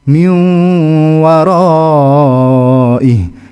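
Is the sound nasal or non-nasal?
nasal. It is said with a clear nasal sound. The speaker calls it right. "beda suaranya"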